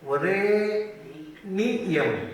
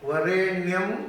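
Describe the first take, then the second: First: The ending is split into two syllables, ni-yam. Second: The ending is squeezed into one syllable, nyam. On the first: The verse has the full count of syllables. The speaker calls it right. "ನ್ಯಂ ಅಲ್ಲ ವರೇಣಿಯಂ ಅಂತ ಹೇಳಬೇಕು" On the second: The verse comes out one syllable short. The speaker calls it wrong. "ನಾವು ಹೇಳೋದ್ರಲ್ಲಿ ಇಪ್ಪತ್ತ್ಮೂರು ಇರೋದಪ್ಪ"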